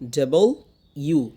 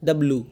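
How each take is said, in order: First: The letter name is said in three syllables. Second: The letter name is squeezed into two syllables. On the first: The speaker calls it right. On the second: The speaker calls it wrong.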